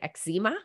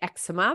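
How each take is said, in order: First: It is said with a North American pronunciation. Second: It is said with an Australian pronunciation.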